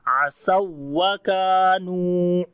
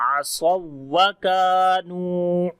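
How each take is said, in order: No difference in how they are said.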